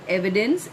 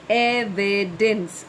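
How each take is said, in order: First: Said in the usual way. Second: Evidence slowly split as e-vi-dence; three syllables. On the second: Shown as a demonstration. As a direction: sound out Evidence one syllable at a time. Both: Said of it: "is three syllables".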